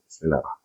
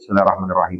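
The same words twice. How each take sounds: First: It is recited very quietly, barely audible. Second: It is recited loudly, audible to others.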